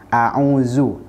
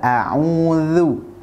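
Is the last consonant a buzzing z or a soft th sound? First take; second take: z; th. First: The last consonant is a buzzing z sound. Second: The last consonant is a voiced th sound. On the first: The speaker calls it wrong. "itu adalah cara baca yang salah" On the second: The speaker calls it right. "Yang benar adalah"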